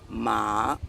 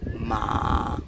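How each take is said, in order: First: The pitch rises from low to high. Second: The pitch stays level and flat. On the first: "the second tone would be ma, it's a rising tone" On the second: "the first tone is ma, and so it's a flat tone"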